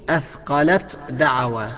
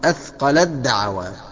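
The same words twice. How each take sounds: First: The t is pronounced separately before the d. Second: The t merges fully into the following d. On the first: The speaker calls it wrong. "ما تقولش" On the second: The speaker calls it right. "بالإدغام"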